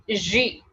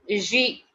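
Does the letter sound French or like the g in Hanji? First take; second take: French; French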